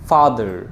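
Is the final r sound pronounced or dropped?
pronounced. The final r sound is pronounced. "আমেরিকানরা বলে যে ফাদার"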